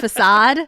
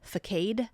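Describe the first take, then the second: First: It is pronounced the usual spoken way. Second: It is pronounced as read from the spelling. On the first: The speaker calls it right. "instead of facade" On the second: The speaker calls it wrong. "I said facade ... because I'd read it"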